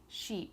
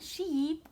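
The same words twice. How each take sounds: First: The vowel is said plainly, without exaggeration. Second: The vowel is stretched and heavily exaggerated. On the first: The speaker calls it right. "I'm just saying sheep" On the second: The speaker calls it wrong. "I'm not going sheep like that. That's totally awkward"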